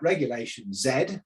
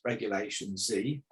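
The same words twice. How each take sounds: First: The final letter is named the British way. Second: The final letter is named the American way. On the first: "I would always call that" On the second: "over here it's"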